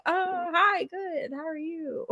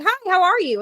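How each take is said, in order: First: High, much softer, hesitant reply; imitating a customer thrown by a cheery greeting; taken aback. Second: High, perky hello; upbeat, chirpy drive-thru welcome; cheery greeting. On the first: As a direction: answer uncertainly, pitched up and quiet. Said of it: "taken aback". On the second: Retold or imitated. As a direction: greet the customer like a friend. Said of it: "how cheery I sound".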